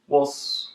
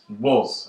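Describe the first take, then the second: First: It is unstressed with a reduced schwa vowel. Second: It is stressed with a full, clear vowel. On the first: "in a weak way... the schwa" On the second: "in a bit of a stronger way"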